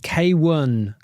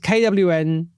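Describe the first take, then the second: First: The name is said as 'K' then 'one'. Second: The name is spelled out as three letters. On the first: The speaker calls it right. "K one is the correct pronunciation" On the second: The speaker calls it wrong. "another mispronunciation of a artist name"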